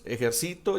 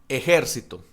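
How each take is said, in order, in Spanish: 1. El acento cae en la tercera sílaba. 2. El acento cae en la segunda sílaba.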